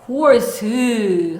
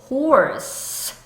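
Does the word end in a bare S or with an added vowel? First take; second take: added vowel; bare S. First: The word ends with an added vowel after S. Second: The word ends with a bare S sound. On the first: The speaker calls it wrong. "horse 하시면 안 된다는 거" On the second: The speaker calls it right. "horse 하셔야지"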